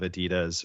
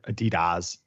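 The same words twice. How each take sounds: First: It is said in the speaker's usual pronunciation. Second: It is said in the listeners' pronunciation. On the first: This is how the speaker's own group says it. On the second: This is how the other group says it.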